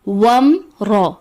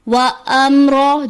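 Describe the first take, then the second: First: The alif is silent and the sounds run together. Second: The alif is voiced with its own vowel. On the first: The speaker calls it right. "दुरुस्त अदायगी है" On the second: The speaker calls it wrong. "अलिफ को जबर देकर पढ़ दिया जाता है"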